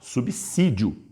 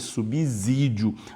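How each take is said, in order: First: The middle consonant is a hissing s sound. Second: The middle consonant is a buzzing z sound. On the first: The speaker calls it right. "o som de dois S, porque isso é o correto mesmo" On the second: The speaker calls it wrong. "eu nunca mais falei subsídio"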